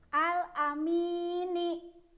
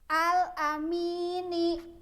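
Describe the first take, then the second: No difference in how they are said.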